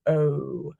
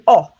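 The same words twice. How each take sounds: First: The vowel sound is long and drawn out. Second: The vowel sound is short and clipped. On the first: "that means a long O, a long vowel sound" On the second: "Or our short vowel sounds"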